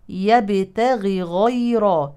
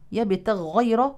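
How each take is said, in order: First: Each gh sound is pronounced clearly and separately. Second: The two gh sounds merge into one doubled sound. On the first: The speaker calls it right. "نبين كل غين حتى لا تدغم الأولى في الثانية" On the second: The speaker calls it wrong. "طلعنا كمان غين مشددة وهي لم ترد أصلا"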